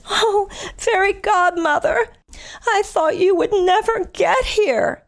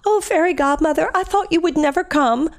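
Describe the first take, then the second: First: Put-on high, slow girlish plea; Cinderella's voice. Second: Higher girlish plea, a bit less put-on; lightly voiced princess, pleading; Cinderella again. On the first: Telling the Cinderella story, voicing Cinderella much higher and slower. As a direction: sigh it out like a rescued princess. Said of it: "and she says". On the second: Retelling the movie line, Cinderella voiced higher. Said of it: "Cinderella says to the fairy godmother".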